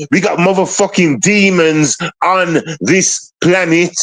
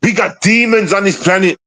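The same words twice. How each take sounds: First: Drawn-out stress on "demons", slow through "planet"; slow emphatic repeat. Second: Said in the usual way. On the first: Real, not acted. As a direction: hammer out "motherfucking demons" word by word. Repeats warning slowly for emphasis.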